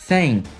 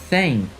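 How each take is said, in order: The two takes are said the same way.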